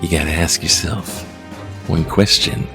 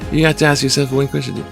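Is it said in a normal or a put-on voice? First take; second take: put-on; normal. First: It is said in a put-on character voice. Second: It is said in his ordinary voice.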